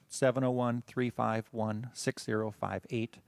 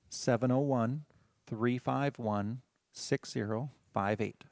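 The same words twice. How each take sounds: First: The number is read at a normal pace. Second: The number is read more slowly.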